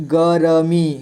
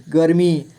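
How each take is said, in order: First: गर्मी as ग, र, मी; letter by letter. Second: Said in the usual way. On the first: Shown as a demonstration. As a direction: give र its own vowel in गर्मी. (गर्मी को तोड़कर: ग, र, मी) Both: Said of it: "थोड़ा fast पढ़ेंगे".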